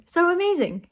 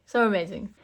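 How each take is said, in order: First: Higher, excited lift on so amazing; gushing emphasis. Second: Said in the usual way. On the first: Real, not acted. Host praising the woman's reaction, gushing excitedly. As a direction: gush over it. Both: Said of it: "her reaction is just so".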